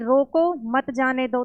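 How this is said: There is a pause right after रोको.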